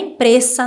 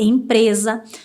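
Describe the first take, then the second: First: The S is pronounced as a hissing S sound. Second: The S is pronounced as a buzzing Z sound. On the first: The speaker calls it wrong. "Não é empresa" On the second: The speaker calls it right. "é empresa"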